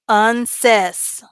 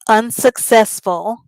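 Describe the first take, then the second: First: The word is garbled and missing several syllables. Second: All syllables of the word are clearly pronounced. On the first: The speaker calls it wrong. "I'm gonna purposely mispronounce the word" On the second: The speaker calls it right. "I pronounced it correctly"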